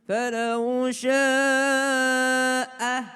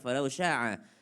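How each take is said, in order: First: The vowel starts with a light glottal stop. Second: The vowel starts with a deep throaty constriction. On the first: The speaker calls it right. "jadi bukan ain itu, jadi bukan sya'a, tapi hamzah" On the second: The speaker calls it wrong. "bukan falau sya'a"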